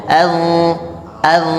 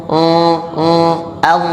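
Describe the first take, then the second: No difference in how they are said.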